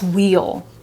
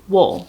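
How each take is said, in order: First: The vowel is full, sounding like 'wheel'. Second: The vowel is reduced, sounding like 'wool'. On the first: This is how it is said when pronounced alone. "that's wheel" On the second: This is how it is said in natural speech. "I say wool"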